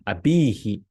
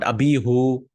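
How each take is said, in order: First: The word ends with an 'ee' vowel. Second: The word ends with an 'oo' vowel. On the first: The speaker calls it right. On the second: The speaker calls it wrong. "not abihu"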